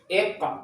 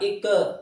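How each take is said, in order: First: The final q bounces with no vowel added. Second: The final q is followed by an added e vowel. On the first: The speaker calls it right. "langsung ketika dipantulkan ada suara" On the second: The speaker calls it wrong. "lain ditambahan e, bukan"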